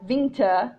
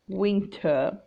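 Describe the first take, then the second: First: The word starts with a buzzing v sound. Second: The word starts with a rounded w sound. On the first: The speaker calls it wrong. "can be mispronounced as v, like winter, but attention not to do that" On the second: The speaker calls it right. "the W sound"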